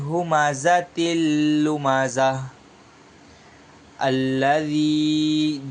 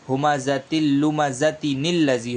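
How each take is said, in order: First: A pause comes before alladhi, with no linking nun. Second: The words run together with a linking nun sound. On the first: The reciter stops at the end of the verse. "अगर आप यहाँ आयत पर रुक जा रहे हैं तो यहाँ पर फिर निल्लज़ी नहीं पढ़ेंगे बल्कि अल्लज़ी पढ़ा जाएगा" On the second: The reciter continues into the next verse. "अगर आप यहाँ मिलाकर पढ़ेंगे"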